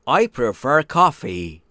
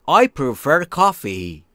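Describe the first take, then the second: The two takes are said the same way.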